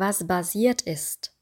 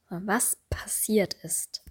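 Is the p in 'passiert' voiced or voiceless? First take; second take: voiced; voiceless. First: The p in passiert is voiced like a b. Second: The p in passiert is voiceless. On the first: The speaker calls it wrong. "Wir würden nicht sagen" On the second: The speaker calls it right. "Das S ist stimmlos und das P natürlich auch"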